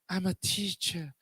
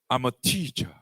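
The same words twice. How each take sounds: First: It is said in a meek, apologetic tone. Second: It is said in a proud, confident tone. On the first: Being a teacher is nothing special. The speaker calls it wrong. "only a teacher. You see, the tone is" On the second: Being a teacher is something to be proud of. The speaker calls it right. "you must stand and say"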